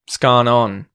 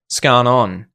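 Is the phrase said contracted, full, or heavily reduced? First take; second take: heavily reduced; heavily reduced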